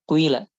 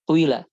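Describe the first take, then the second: The two takes are said the same way.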